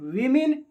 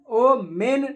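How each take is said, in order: First: The first syllable sounds like 'wi'. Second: The first syllable sounds like 'wo'. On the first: The speaker calls it right. "वीमेन या वुमन, वेमेन या वुमन पढ़ेंगे" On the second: The speaker calls it wrong. "ओ मेन नहीं पढ़ेंगे, गलत pronunciation है"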